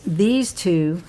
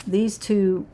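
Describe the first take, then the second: The two takes are said the same way.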